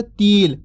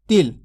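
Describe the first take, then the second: First: तिल stretched slowly into "teel"; drawn-out long vowel. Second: तिल with a short, quick "i"; quick short vowel. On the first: Teacher contrasting vowel lengths, drawing तिल out long. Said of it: "ता का उच्चारण खींच के कर रहे". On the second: Teacher showing learners the short vowel, said quickly in तिल. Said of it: "जल्दी से उच्चारण हो रहा है". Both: Shown as a demonstration.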